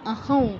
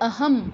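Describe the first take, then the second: First: The word ends with a nasal ng sound. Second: The word ends with a closed m sound. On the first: "দুটোই সঠিক" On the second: "ম হসন্তর মতো উচ্চারণ করতে পারি"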